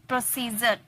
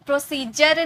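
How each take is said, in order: First: प्रोसीजर with a z, "pro-see-zer"; z sound. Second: प्रोसीजर with a hard j, "pro-see-jer"; प्रोसीजर ending in English j; wrong j sound. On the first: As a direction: buzz the z in प्रोसीजर, softly. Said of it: "ज का sound आ रहा है". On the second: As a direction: demonstrate the mistaken j in प्रोसीजर. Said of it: "प्रोसीजर नहीं". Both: Shown as a demonstration.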